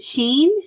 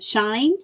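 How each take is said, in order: First: The vowel sounds like the 'ee' in 'seen'. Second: The vowel sounds like the 'i' in 'line'. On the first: "Is it Sheen?" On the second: "Is it Shine?"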